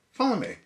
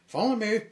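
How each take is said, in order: First: High, loud call to follow; bright command. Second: Very high, loud sing-song order; higher cheerful call. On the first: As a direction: cheerfully summon him along. Hero commands new friend. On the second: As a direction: lead the way with a bright shout. Hero repeats command. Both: Acted.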